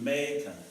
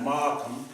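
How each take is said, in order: First: The first syllable sounds like 'may'. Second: The first syllable sounds like 'mar'. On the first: The speaker calls it right. "This is how they pronounce it" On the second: The speaker calls it wrong.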